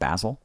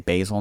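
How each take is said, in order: First: Basil is pronounced the British way. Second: Basil is pronounced the American way. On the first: This is the speaker's original habit. "instead of basil" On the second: The speaker has picked up a new habit. "you'll say basil now"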